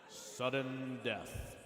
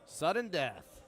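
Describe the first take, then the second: First: It is said in a put-on dramatic voice. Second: It is said in his normal voice.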